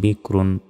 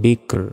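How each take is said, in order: First: The word ends with its full nasal ending. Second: The word ends abruptly without its final ending. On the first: The reading continues without stopping. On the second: The reader stops on this word.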